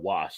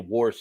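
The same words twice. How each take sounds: First: It is said plainly as wash, no r. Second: It is said like warsh, southeastern US style.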